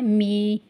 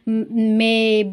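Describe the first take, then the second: First: The vowel is a long 'ee' sound. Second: The vowel is a plain 'eh' sound. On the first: "कुछ लोग पढ़ते हैं मी ... ऐसा पढ़ना जो है ये गलत होगा" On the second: "बहुत लोग इसको मे ... पढ़ते हैं"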